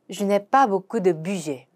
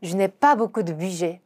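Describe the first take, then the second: First: Slow French, "pas" stressed; careful teaching read; slow demo pronunciation. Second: Slow careful French; slow model sentence; slow repeat. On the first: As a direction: model slowly. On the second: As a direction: repeat slowly. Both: Shown as a demonstration. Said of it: "avoir 동사 사용해서 물어봅시다".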